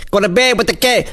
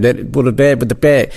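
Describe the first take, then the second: First: "Go to bed with the keg" sung out high in rhythm; sounding out words. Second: Said in the usual way. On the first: Shown as a demonstration. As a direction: sound out "keg" like a rap draft in your head. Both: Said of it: "sound out the words in my head".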